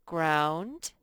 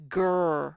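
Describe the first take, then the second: First: "ground" said a little louder with a rising end; rising model word. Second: "Ground" said loud and firm with a falling end; clear loud model word. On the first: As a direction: offer "ground" with a lifted, asking end. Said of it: "This says". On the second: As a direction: announce "Ground" clearly for the class. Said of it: "this word says ground". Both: Shown as a demonstration.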